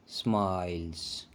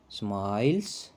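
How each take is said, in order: First: smiles drawn out low, soft and slow; dramatic answer reveal. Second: Said in the usual way. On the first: Shown as a demonstration. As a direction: let smiles land like a teasing secret. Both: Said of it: "क्या है?".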